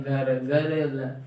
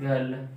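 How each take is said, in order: First: गर्ल slowly pulled apart into pieces; broken-up pronunciation. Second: Said in the usual way. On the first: Shown as a demonstration. Teacher showing how one never says it, गर्ल broken up. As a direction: split गर्ल into drawn-out separate sounds. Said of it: "ऐसे तो बोलेंगे नहीं". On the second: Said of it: "केवल एक ही बार में बोलेंगे ना".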